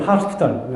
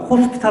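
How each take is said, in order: First: It is said with American-style rolling. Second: It is said plainly, Korean style.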